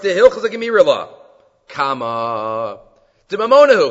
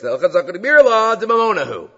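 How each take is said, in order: First: There is a break before the last word. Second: It is said as one unbroken phrase.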